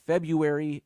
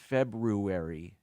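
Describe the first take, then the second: First: The middle R sound is left out. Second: The middle R sound is clearly pronounced. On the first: The speaker calls it wrong. "It's not February" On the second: The speaker calls it right. "pronounce that R in the middle"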